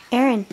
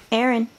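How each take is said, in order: Both takes have the same delivery.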